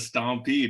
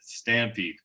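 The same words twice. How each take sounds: First: The first vowel sounds like 'stomp'. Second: The first vowel sounds like 'stamp'. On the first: This is the local regional way of saying it. "you call it the Stampede up in Grand Prairie" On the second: This is the usual way of saying it elsewhere. "rather the Stampede"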